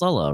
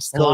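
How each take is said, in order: First: The stress is on the first syllable. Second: The stress is on a lengthened second syllable. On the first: The speaker calls it right. "the way it's supposed to be pronounced" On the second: The speaker calls it wrong. "he's putting the accent on the second half of the word"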